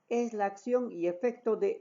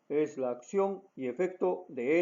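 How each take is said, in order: First: It is spoken at a high pitch. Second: It is spoken at a low pitch. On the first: "con un tono agudo" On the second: "de forma grave"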